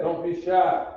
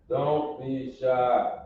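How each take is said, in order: First: High coaxing. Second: Drawn-out coax. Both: Real, not acted.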